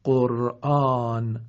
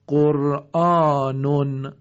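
First: قرآن slow, long "aa", ending on bare n; pausal sukun. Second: قرآنون loud and slow, ending "-nun"; tanween sounded. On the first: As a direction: stop قرآن without the "un". (قرآن کشیده با نون ساکن) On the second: (قرآنون با تنوین ضمه، «قُرآنٌ») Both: Shown as a demonstration.

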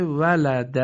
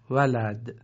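First: ولد said in full as "walada"; final fatha sounded. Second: ولد stopped on a vowelless d, "walad"; pausal sukun. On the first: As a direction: end ولد on a short open "a". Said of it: "آخرش فتحه اومده". (ولد با فتحهٔ آخر، «وَلَدَ») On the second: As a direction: drop the final "a" of ولد. (ولد با دال ساکن، «وَلَدْ») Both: Shown as a demonstration.

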